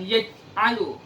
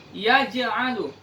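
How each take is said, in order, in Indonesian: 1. Bunyi j dipotong pendek tanpa gema. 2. Bunyi j dilepas dengan pantulan yang bergema. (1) "bukan yaj'alu" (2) "Harus dibaca qalqalahnya"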